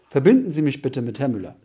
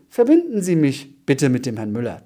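First: The voice stays level at the end. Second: The voice rises at the end. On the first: It sounds like a plain statement. "Wenn du deine Stimme neutral lässt, also einfach als Aussage lässt" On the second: It sounds like a question. "Wenn die Stimme nach oben geht"

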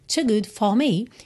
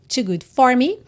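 First: It has a British 'for' without r. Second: It has an American r in 'for'.

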